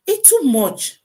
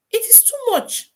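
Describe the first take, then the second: First: Said in the usual way. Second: High pitched exclaim. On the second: Real, not acted.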